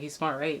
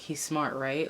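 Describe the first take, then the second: First: The tone is sincere and agreeing. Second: The tone is sarcastic and mocking. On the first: The speaker seeks agreement that the person is smart. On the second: The speaker doubts the person is smart.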